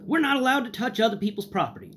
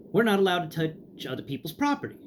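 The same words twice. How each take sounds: First: High, prissy staff voice; mock the clerk's rule-bound brush-off; imitating a prim librarian; snooty refusal. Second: A higher, prim brush-off; lightly mocked librarian; repeated snooty refusal. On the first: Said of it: "is what I get in response". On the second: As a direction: parrot the clerk's rule again. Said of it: "is the response I get again".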